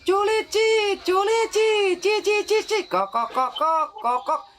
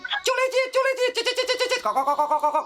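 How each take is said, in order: First: The bird call is said slowly. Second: The bird call is said fast.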